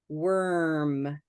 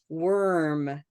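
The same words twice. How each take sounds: The two takes are said the same way.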